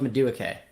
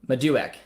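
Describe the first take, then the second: First: The name ends with an extra final syllable. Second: The name ends without the extra final syllable. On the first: The speaker calls it wrong. "I thought it was Madueke. If I've been saying it wrong this entire time" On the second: The speaker calls it right. "it's pronounced Maduek"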